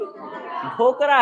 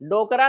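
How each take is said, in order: First: The first consonant is aspirated, with a breath. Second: The first consonant is plain, without a breath. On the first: The speaker calls it right. "ढ ढ है ढ ढोकरा" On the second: The speaker calls it wrong. "डोकरा नहीं है भाई"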